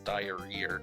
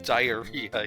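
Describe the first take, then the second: First: The word ends with an added r sound. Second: The word ends in a plain vowel, no r. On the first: "adding the, the Phantom R to his uh to his words that end with an ah sound" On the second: "Instead of diarrhea"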